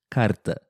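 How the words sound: The R is a quick light tap. This is how it is said in southern Brazil. "E no sul do Brasil, ... É o som do R fraco"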